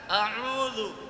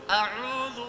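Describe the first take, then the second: Both takes have the same delivery.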